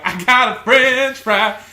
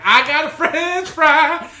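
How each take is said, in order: First: Louder and higher, slow and joyful; gleeful costumed actor. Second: Much higher and louder, slow and delighted; gleeful costumed actor. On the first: Friend repeats the actor's joyful cry with the French fry, loud and high. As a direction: crow it like a proud child. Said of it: "and he was like". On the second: Friend retelling the costumed actor who got a French fry, high and gleeful. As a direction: squeal it like a happy kid with a prize. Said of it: "skipping away with it". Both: Retold or imitated.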